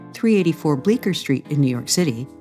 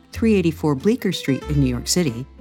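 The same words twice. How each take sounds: The two takes are said the same way.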